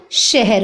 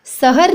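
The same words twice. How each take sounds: First: "शहर" slowly, opening on sh; correct sh sound. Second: "शहर" with s instead of sh; wrong pronunciation. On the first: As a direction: say "शहर" as she-har. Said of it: "शहर होता है". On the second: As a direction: say "शहर" as sa-har. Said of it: "नहीं होता बच्चों". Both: Shown as a demonstration.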